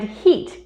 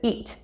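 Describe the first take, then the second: First: The word begins with an h sound. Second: The word begins without an h sound.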